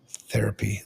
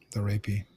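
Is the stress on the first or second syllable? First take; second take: first; second. First: The stress is on the first syllable. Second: The stress is on the second syllable. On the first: The speaker calls it right. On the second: The speaker calls it wrong.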